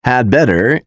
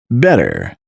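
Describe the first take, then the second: First: Said in the usual way. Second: "better" alone, with had dropped entirely; casual "better", no trace of had; reduced had better. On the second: Shown as a demonstration. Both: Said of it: "is pronounced as".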